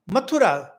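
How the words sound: The name is pronounced the Indian way. The speaker calls it right. "we just as in Mathura"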